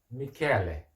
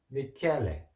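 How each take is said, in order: Both takes have the same delivery.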